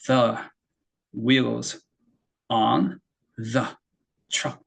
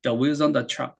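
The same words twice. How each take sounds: First: "the", "wheels", "on", "the", "truck" each cut off by a pause; isolated words with clear gaps in "the wheels on the truck". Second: "The wheels on the truck" blended into one unbroken sound; linked words. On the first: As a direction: say "the / wheels / on / the / truck" as five separate sounds. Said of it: "이렇게 다섯 번 사운드를 내지 않았죠". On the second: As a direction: run "wheels" straight into "on". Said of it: "한 번만 얘기를 했잖아요". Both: Shown as a demonstration.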